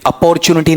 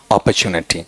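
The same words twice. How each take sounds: First: अपॉर्चुनिटी with a full "por" in the second syllable; wrong pronunciation. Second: अपॉर्चुनिटी with a reduced second syllable, op-uh-CHU-nuh-ti; correct pronunciation. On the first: Teacher showing students the form to avoid, wrong pronunciation. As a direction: say अपॉर्चुनिटी spelling-style, uh-POR-chu-ni-ti. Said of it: "अपॉर्चुनिटी नहीं". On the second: Teacher showing students what it should become, correct pronunciation. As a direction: say अपॉर्चुनिटी low, with a weak "puh" for "por". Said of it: "अब गौर करो क्या बनना चाहिए". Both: Shown as a demonstration.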